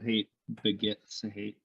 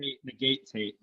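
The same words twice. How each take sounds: First: "begets" with a short E, slowly; corrected pronunciation. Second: "negates" with a long "gay" vowel; mimicked mispronunciation. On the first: Shown as a demonstration. Co-host correcting a misquoted saying, careful "begets". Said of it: "He, he didn't, he didn't say". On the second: Co-host mocking the speaker's slip, mimicked mispronunciation of "negates". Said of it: "My Wisconsin accent bothers you".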